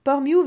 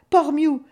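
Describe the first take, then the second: First: Said in the usual way. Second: Port Mew shouted high and loud; yelling Port Mew. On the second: A narrator's reading. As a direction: call out Port Mew over the storm. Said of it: "hurla Valentino".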